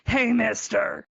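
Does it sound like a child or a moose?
moose. It is said in a moose-like voice.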